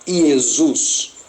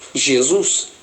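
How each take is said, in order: First: It begins with a y sound. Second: It begins with a soft zh sound. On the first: "tinha um som de I" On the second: "elas liam Jesus"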